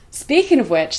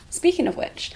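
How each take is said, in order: First: Breathless, gasping for air; out of breath. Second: Said in the usual way. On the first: Real, not acted. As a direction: talk while still panting. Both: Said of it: "let me catch my breath".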